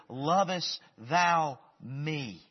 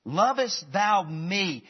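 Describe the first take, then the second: First: "Lovest thou me?" drawn out very slowly, leaning on "thou"; slow, searching question. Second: "Lovest thou me?" slower and raised, punching "Lovest"; pressing question. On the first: Jesus asking Peter, slow and searching with weight on "thou". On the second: Jesus pressing Peter again, weight on "Lovest". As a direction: hit "Lovest" hard in "Lovest thou me?". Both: Shown as a demonstration. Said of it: "I like that emphasis of me".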